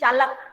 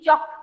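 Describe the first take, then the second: First: The L is sounded, giving three syllables. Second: The L is silent, giving one syllable. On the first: The speaker calls it wrong. "मुझे बोलना चाहिए चालक. और मैं चालक नहीं बोल रही हूँ" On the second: The speaker calls it right. "I am speaking chalk. L is silent"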